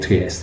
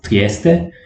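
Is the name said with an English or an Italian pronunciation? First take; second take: English; Italian. First: The name is said with an English pronunciation. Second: The name is said with an Italian pronunciation. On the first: The speaker calls it wrong. "let's not call it Trieste" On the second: The speaker calls it right. "I'm Italian and I know that it's pronounced Trieste"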